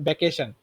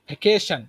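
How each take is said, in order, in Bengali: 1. b ধ্বনি দিয়ে শুরু, দুই ঠোঁট একসাথে। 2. v ধ্বনি দিয়ে শুরু, ঠোঁট দাঁতের ওপর।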